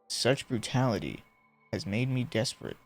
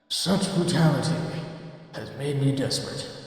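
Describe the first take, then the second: First: It is read in the speaker's ordinary voice. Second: It is read in an eerie, ghostly put-on voice.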